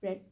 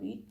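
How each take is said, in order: First: The vowel is short, like 'red'. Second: The vowel is long, like 'reed'. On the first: It is the past-tense form of the verb. "Second form में रेड पढ़ते हैं" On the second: It is the present-tense form of the verb. "First form में हम उसको रीड पढ़ते हैं"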